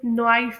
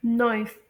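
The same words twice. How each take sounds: First: नॉइस opened into no-aa-is; common mispronunciation. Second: नॉइस with one oy glide; correct pronunciation. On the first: Teacher mimics what many people say, mispronunciation. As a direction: say नॉइस with an extra aa vowel. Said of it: "जिसे बहुत से लोग नॉइस pronounce करते हैं". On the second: Teacher introduces the fifth example, correct pronunciation. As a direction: say नॉइस as a single syllable. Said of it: "हमारी fifth example है". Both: Shown as a demonstration.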